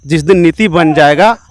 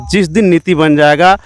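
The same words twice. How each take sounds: The two takes are said the same way.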